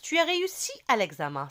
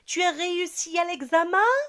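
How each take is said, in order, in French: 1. Intonation plate et régulière, qui descend à la fin. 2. La voix monte à la fin. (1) "c'est une phrase simple" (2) "l'intonation de ma voix va changer"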